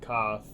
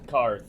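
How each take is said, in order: First: The vowel is said with no R sound. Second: The vowel is followed by an R sound. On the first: "they don't use an R sometimes" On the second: "I think it's technically Karth because I'm pretty sure there is an R to it"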